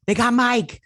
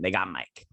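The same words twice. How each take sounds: First: Much higher and louder, bursting out; excited outburst. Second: Said in the usual way. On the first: Real, not acted. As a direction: blurt it out high and loud the second time. Repeats news, then exclaims.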